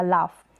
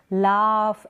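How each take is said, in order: First: "लाफ" with a short आ; short vowel. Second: "लाफ" with the आ drawn out long; long vowel, wrong way. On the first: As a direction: say "लाफ" briskly, without stretching the vowel. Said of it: "आ का sound short आएगा". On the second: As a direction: stretch the vowel in "लाफ" as a mistake to avoid. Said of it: "ऐसे करके नहीं बोलेंगे". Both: Shown as a demonstration.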